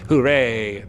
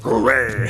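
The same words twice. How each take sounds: First: It is said in the stoat's usual voice. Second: It is said in a Hulk-like voice.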